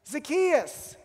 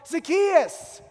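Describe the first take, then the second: First: The name is said in an eager, excited tone. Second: The same.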